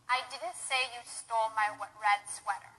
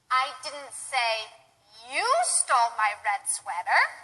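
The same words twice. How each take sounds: First: It is flat, with no word stressed. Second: The word "you" carries the stress. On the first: It is a neutral statement. "I didn't stress any words. I just said it monotone without any stress" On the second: Someone else stole it. "perhaps I said somebody else stole it, and I wasn't blaming you"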